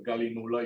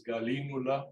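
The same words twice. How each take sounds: First: "Galinula" stressed on the NU; Spanish-style stress. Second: "Galínula" stressed on the LI; correct Latin stress. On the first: Teacher reading it as in Spanish, Spanish-style stress. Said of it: "Uno pronunciaría en español". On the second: Teacher giving the proper name, correct stress. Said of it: "y es Galínula". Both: Shown as a demonstration.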